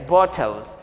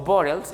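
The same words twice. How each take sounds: First: It is said in a non-American accent. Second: It is said in an American accent.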